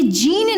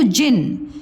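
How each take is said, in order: First: जीन stretched as "jeen"; wrong long vowel. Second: जिन said short, "jin"; correct short vowel. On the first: Teacher showing what it isn't, long "jeen". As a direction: draw out the ee in जीन. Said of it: "ये जीन नहीं है". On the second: Teacher correcting the reading, short "jin". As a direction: say जिन with a quick i. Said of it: "तो जिन". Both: Shown as a demonstration.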